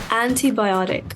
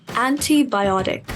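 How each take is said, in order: The two takes are said the same way.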